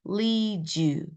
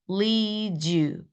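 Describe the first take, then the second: The two takes are said the same way.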